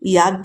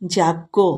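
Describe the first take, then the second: First: The word starts with a 'ya' sound. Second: The word starts with a 'ja' sound. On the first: The speaker calls it wrong. "ইয়াজ্ঞ নয়" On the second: The speaker calls it right.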